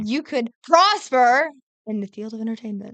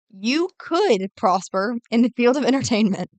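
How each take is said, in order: First: The word prosper is stressed. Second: The word could is stressed dramatically. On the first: The speaker calls it right. "now put the emphasis on prosper this time" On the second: The speaker calls it wrong. "she emphasized "could" a little bit too dramatically"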